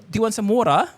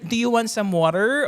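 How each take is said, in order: First: The R at the end of water is dropped. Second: The R at the end of water is pronounced. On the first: "tinry kong tanggalin" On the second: "sa Filipino ... mayroon tayo like may mga R"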